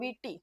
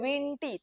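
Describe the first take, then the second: First: The nasal is pronounced softly on the vowel. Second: The nasal is pronounced strongly and separately. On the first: The speaker calls it right. "તમે એમ જ કહો" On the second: The speaker calls it wrong. "તમે એમ ન કહો"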